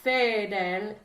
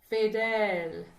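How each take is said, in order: First: The vowel in the word is short. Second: The vowel in the word is long. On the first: The speaker calls it wrong. "So it's not fidel" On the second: The speaker calls it right. "fidel is the long vowel"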